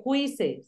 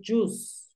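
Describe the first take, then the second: First: "juice" misread as Spanish-style "HWEE-seh"; "juice" read by its spelling, like "huise"; mispronounced juice. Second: "juice" as one syllable, "joos"; "juice" with silent i, rhyming with "loose"; correct juice. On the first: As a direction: say "juice" wrongly in two syllables, with a w sound. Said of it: "Pilas, no se dice juice". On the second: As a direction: say "juice" slowly with a j and long oo. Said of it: "se dice juice". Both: Shown as a demonstration.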